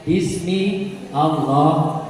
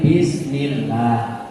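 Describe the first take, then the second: First: The a of Allah is pronounced separately. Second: The a is dropped and the words are joined.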